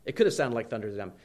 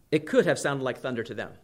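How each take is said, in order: First: Fast low echo of the line; quicker, softer repeat. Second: Said in the usual way. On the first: Shown as a demonstration. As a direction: rush it out under the breath a little. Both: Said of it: "repeated line for emphasis".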